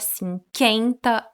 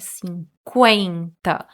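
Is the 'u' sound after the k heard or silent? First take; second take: silent; heard. First: The u after the k is silent. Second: The u after the k is heard. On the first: The speaker calls it wrong. "Não é cinquenta" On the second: The speaker calls it right. "Pronunciamos o U"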